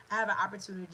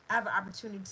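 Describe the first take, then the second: No difference in how they are said.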